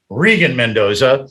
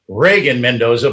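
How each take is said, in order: First: The first vowel of the name is long E. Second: The first vowel of the name is not long E. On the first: The speaker calls it right. "it's a long E there" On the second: The speaker calls it wrong. "not Reagan Mendoza"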